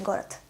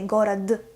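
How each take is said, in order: First: The final consonant is a voiceless t sound. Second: The final consonant is a voiced d sound. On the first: The speaker calls it right. "we say город" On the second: The speaker calls it wrong. "We don't say город"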